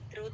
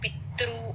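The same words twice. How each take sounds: First: The word is said lightly, without force. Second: The word is said with heavy force. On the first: The speaker calls it right. "పితృ తేలిగ్గా చెప్పాలి" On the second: The speaker calls it wrong. "అలా stress రాకూడదు"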